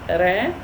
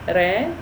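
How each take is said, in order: Both takes have the same delivery.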